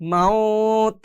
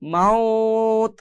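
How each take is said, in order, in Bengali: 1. থামার আগে স্বরটিকে টেনে বলা হয়। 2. থামার আগে স্বরটিকে টেনে বলা হয়।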